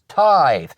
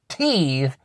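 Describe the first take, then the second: First: The vowel sounds like 'eye'. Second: The vowel sounds like 'ee'. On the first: The speaker calls it right. "it's tithe" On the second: The speaker calls it wrong. "it's not teeth"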